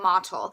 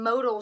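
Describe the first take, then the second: First: The name is said like 'mottle'. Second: The name is said like 'modal'. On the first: The speaker calls it right. "you say it mottle" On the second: The speaker calls it wrong. "you don't want to go in and say"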